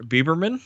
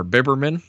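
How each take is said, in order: First: "Bieberman" with a long ee in Bie; first pronunciation guess. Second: "Biberman" with a short i in Bib; alternative pronunciation guess. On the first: Host trying a director's surname, first pronunciation guess. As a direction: say "Bieberman" as BEE-ber-man. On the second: Host unsure of a director's surname, alternative pronunciation guess. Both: Shown as a demonstration. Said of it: "not exactly sure how it's pronounced".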